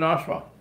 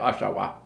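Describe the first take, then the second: First: The word is shortened, with a sound dropped. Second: The word is said in full, every sound pronounced. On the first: This is how locals actually say it. "We say, oh, we live in Oshawa" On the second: Locals do not actually say it this way. "We don't say Oshawa"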